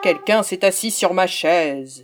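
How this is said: It is said in a big, deep voice.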